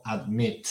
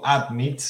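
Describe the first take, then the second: First: "admit" stressed on MIT; ad-MIT, drawn out on the second syllable. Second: "admit" stressed on AD; AD-mit, second syllable left weak; wrong stress, first syllable. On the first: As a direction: say "admit" slowly, weight on the last syllable. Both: Shown as a demonstration. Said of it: "está cayendo el acento en la segunda sílaba".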